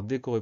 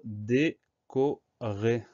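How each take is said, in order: First: Said in the usual way. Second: "décorer" very slow, a gap between syllables. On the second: Shown as a demonstration. Teacher sounding out décorer for spelling, syllable by syllable. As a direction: stretch "décorer" out as dé, co, rer. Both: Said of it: "première syllabe D".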